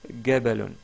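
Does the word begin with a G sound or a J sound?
G sound. The word begins with a hard g sound. This is the Egyptian dialect pronunciation. "ils disent gabalun"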